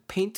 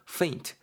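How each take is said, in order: First: The word begins with a p sound. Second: The word begins with an f sound. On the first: The speaker calls it wrong. "페인트 아닙니다" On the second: The speaker calls it right. "f 사운드 살려야 되고"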